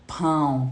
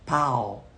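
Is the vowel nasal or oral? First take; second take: nasal; oral. First: The vowel is nasalized. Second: The vowel is oral, without nasalization. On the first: "tá vendo que é nasalizado?" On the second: "eles falam pau"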